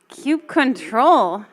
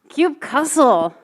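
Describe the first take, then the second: First: The ending is said as the word control. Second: The ending is said as the word cussle. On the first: "any other pronunciations?" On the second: "because sometimes you just have to cuss at your computers"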